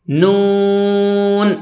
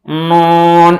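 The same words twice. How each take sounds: First: نون with an oral vowel, held very long; from the mouth. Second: نون wrongly droned through the nose; nasal mistake. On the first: Shown as a demonstration. Teacher showing the right way, oral drawn-out نون. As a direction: keep نون out of the nose and stretch it. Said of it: "منہ سے آواز نکال کر". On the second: Retold or imitated. Teacher imitating some people's wrong reading, nasal نون. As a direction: send the vowel of نون into the nose. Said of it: "یہ غلط ہے".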